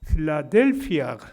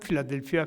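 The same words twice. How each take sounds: First: It is said with a strong stressed syllable. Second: It is said flat with no stressed syllable. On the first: The speaker calls it right. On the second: The speaker calls it wrong.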